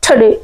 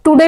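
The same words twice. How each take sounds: First: टुडे with a puffed t and short weak first vowel, "thuh-DAY"; aspirated, reduced TODAY. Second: Said in the usual way. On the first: Shown as a demonstration. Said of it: "क्या बोलना है?". (टुडे को हल्के "ठडे" जैसा बोलें) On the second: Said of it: "टुडे नहीं बोलना है".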